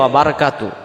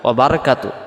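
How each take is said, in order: Both takes have the same delivery.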